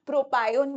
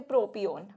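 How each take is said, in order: First: प्रोपायोन with a "pie" middle, pro-pie-on; alternative pronunciation. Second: प्रोपियोन with a "pee" middle, pro-pee-on; standard pronunciation. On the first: Teacher showing students what some people say, प्रोपायोन pronounced pro-pie-on. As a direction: say प्रोपायोन as pro-PIE-on, long "eye" vowel. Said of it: "कुछ लोग इसको प्रोपायोन भी बोल देते हैं". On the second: Teacher giving students her preferred form, प्रोपियोन pronounced pro-pee-on. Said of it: "but this is वैसे प्रोपियोन". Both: Shown as a demonstration.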